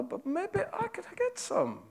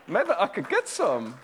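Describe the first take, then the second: First: High, hushed and slow with GET leaned on; a lightly acted sly servant, savouring the thought; scheming servant. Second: Higher, fuller voice with GET leaned on; a lightly acted sly servant, bolder now; scheming servant. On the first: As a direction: let the greedy idea dawn slowly, almost to yourself. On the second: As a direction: say the greedy plan aloud, now decided. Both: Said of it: "that's my attempt at drama".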